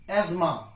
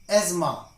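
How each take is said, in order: Both takes have the same delivery.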